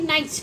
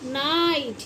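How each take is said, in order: First: The vowel is said short. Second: The vowel is said long. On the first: The speaker calls it wrong. "ना कि नाइट" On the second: The speaker calls it right. "लॉन्ग vowel sound use कर रहे हैं"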